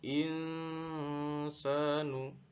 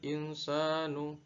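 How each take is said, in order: First: The nasal sound is held somewhat longer. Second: The nasal sound is clipped short. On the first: The speaker calls it right. "insanu dibaca agak panjang" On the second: The speaker calls it wrong. "tidak dibaca waqalal insanu"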